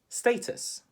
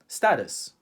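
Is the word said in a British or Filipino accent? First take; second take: British; Filipino. First: The word is said in a British accent. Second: The word is said in a Filipino accent. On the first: "how do Brits say it?" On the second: "So how do Filipinos say it or pronounce it?"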